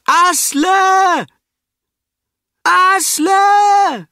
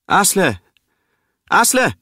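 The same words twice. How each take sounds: First: A piercing, very high, full-volume shout; desperate shout. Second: A woman calling a name across the water, high and loud. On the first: Brita screaming for the drowning Asle, desperate shout. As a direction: scream the name out over the fjord. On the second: A woman on the shore calling for Asle, loud call. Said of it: "hört sie eine Frau rufen". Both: Acted.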